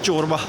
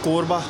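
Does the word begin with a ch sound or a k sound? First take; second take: ch; k. First: The word begins with a ch sound. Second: The word begins with a k sound. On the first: The speaker calls it right. "कोरबा नहीं चोरबा" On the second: The speaker calls it wrong. "मैं कहा कोरबा"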